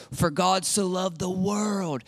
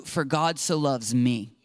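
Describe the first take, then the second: First: Slow, solemn recital of the familiar verse, weight on God; quoted verse. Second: Lower, intimate, with "loves me" made personal and close; personal rewording. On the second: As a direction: bring the verse home to yourself, lower and closer. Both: Shown as a demonstration.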